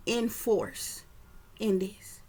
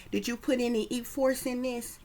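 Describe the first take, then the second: First: "In force" said as two clear words, in then force; spelled out as in force. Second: "E-force" said as a drug name, E then force; "E-force" like the name of a pill, E and force run together; heard as E-force. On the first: Shown as a demonstration. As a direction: pull "In force" apart into in and force. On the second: Retold or imitated. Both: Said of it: "Basically telling the person to force her".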